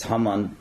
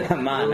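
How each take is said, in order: First: Haman stressed on the first syllable; first guess at pronunciation. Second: Haman as huh-MAHN, stressed at the end; second guess at pronunciation. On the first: Lecturer unsure of a historian's surname, trying Haman front-stressed. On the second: Lecturer offering another guess at a surname, Haman end-stressed. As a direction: say Haman with a long ah in the last syllable. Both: Shown as a demonstration. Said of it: "I don't know how to pronounce it".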